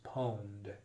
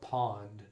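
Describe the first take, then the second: First: The word is said unlike pond. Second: The word is said exactly like pond. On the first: The speaker calls it right. "the pr correct pronunciation is pwned" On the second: The speaker calls it wrong. "Every time I see it I want to call it pond"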